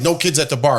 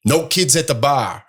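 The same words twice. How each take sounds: First: Said in the usual way. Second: Put-on slow, slightly off-target Boston accent; put-on Boston accent for a quote. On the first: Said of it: "They're like". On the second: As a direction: imitate a bar worker with a Boston accent. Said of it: "oh, that was a Boston accent".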